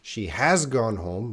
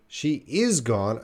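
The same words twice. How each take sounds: First: "has" picked out clearly; teacher's emphasis on "has"; stress on "has". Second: Slow, with "is" picked out; stress on "is". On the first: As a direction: lean on the word "has" to mark the contrast. Contrasts has with is. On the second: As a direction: lean on the word "is" to mark the contrast. Contrasts is with has. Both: Shown as a demonstration.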